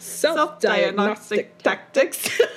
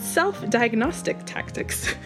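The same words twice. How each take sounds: First: It is said in a playful, whimsical way. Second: It is said in a plain, serious way. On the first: "You're gonna say it like that? ... Whimsy" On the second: "I'm gonna try to say it like for real"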